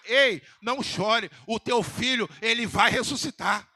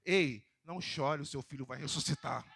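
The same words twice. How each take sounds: First: Louder, slower, ringing promise; proclaimed shout. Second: Tender reassurance. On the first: Preacher repeats Jesus' promise to the widow, now shouted out loud. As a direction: call it out like a victory. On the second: Preacher voicing Jesus gently consoling the widow, soft and tender. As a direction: gently comfort her, softer. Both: Shown as a demonstration. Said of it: "Eu vou repetir de novo aqui".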